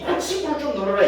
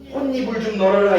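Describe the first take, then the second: First: The word is said with a 'ch' sound: hochibul. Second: The word is said with an 'n' sound: honnibul. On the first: The speaker calls it wrong. "이런 사람은 없어" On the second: The speaker calls it right. "이렇게 되지"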